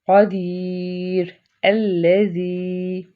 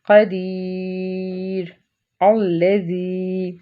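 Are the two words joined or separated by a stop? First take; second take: separated; separated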